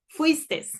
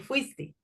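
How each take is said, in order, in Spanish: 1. La palabra termina con una s añadida. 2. La palabra termina en vocal, sin s. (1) "cuando están tuteando utilizan la S" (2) "en lugar de"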